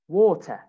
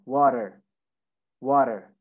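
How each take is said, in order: First: "water" as WAW-tuh, R dropped; British, no R. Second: American "water", WAH-der with final R; American pronunciation. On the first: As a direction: say "water" without the final R, T pronounced. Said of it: "You don't say the R". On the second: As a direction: say "water" with a tapped T and an R. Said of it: "In America". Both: Shown as a demonstration.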